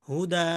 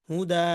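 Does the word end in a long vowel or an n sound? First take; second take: long vowel; long vowel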